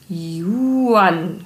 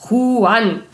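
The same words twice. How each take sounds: First: Yuan with a German J, like "Juan" read as "Yuan"; read as written. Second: Juan with a throaty Spanish J, like Ch; Spanish pronunciation. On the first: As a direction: say Yuan with a plain J sound. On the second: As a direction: Juan said the Spanish way, louder and higher. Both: Shown as a demonstration. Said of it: "Da spricht man das J wie Ch aus".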